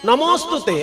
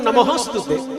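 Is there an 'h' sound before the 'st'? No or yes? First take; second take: no; yes. First: No h sound is heard before the st. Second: An h sound is heard before the st. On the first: The speaker calls it right. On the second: The speaker calls it wrong.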